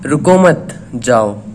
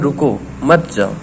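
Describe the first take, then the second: First: The pause comes after 'mat', meaning don't stop. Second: The pause comes after 'ruko', meaning stop.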